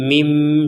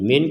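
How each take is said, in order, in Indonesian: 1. Kata ini diakhiri dengan bunyi m sengau. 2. Kata ini diakhiri dengan bunyi n biasa. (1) "kalau disambung menjadi mim" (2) "kalau kita berhenti menjadi menjadi min"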